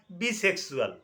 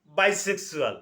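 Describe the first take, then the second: First: বিসেক্সুয়াল said with a short "bi" vowel; ভুল উচ্চারণে বিসেক্সুয়াল; slip of the tongue. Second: বাইসেক্সুয়াল with a full "bai" diphthong; correctly pronounced bisexual; corrected pronunciation. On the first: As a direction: misspeak it as বিসেক্সুয়াল, "bee" at the start. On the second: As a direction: fix it as বাইসেক্সুয়াল, opening on "bai". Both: Real, not acted.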